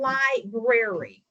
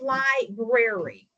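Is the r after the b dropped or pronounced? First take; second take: pronounced; pronounced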